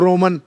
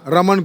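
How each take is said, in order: First: The first vowel is a rounded 'o' sound. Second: The first vowel is a plain 'a' sound. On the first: The speaker calls it wrong. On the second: The speaker calls it right.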